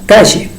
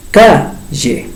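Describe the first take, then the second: First: Said in the usual way. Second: "calle" split in two, long stressed "ca"; stress shown by syllables. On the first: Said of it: "¿Cuál sería el acento prosódico?". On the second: Shown as a demonstration. Teacher asking where the accent falls, "calle" split with stressed "ca". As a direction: lean on "ca" in "calle", then drop "lle". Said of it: "Está en la segunda sílaba".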